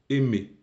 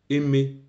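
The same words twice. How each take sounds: Both takes have the same delivery.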